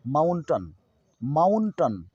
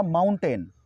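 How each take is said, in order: First: माउंटन as maun-tun; weak tun ending माउंटन, falling; correct mountain pronunciation. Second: माउंटेन as maun-TEN; full e vowel ending माउंटेन; mispronounced mountain. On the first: Teacher modelling the correct form, माउंटन as maun-tun. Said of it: "सही उच्चारण करेंगे". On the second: Teacher introducing the common reading, माउंटेन as maun-ten. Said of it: "माउंटेन को हम". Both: Shown as a demonstration.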